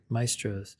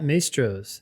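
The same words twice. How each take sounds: First: The first vowel is an 'eye' sound. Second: The first vowel is not an 'eye' sound. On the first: The speaker calls it right. "So the A E becomes an I sound" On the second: The speaker calls it wrong. "Am I saying that right?"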